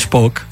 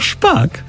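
First: The vowel is pronounced like 'o'. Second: The vowel is pronounced like 'a'. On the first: The speaker calls it wrong. "nie mówi się szpok" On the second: The speaker calls it right. "tylko szpak"

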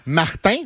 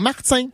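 First: The t is a plain t sound. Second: The t has a buzzing ts sound. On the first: The speaker calls it right. "S'il est suivi d'une consonne, ça annule le Z qui était avant" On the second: The speaker calls it wrong. "pas Martin"

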